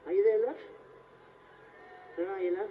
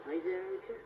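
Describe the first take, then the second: First: Louder, insistent call. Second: Said in the usual way. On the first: Acted. Blindfolded performer searching for his volunteer, calling out. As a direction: call out to find her. Calls out after no answer.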